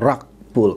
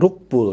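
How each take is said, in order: First: It is said with English pronunciation. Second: It is read with Indonesian spelling-based sounds. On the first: "kalau bahasa Inggrisnya" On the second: "Kalau dibaca Indonesianya"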